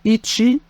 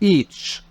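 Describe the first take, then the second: First: The word ends with a clear final vowel. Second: The final vowel is dropped, ending on 'ch'. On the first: The speaker calls it right. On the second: The speaker calls it wrong. "وليس إيتش"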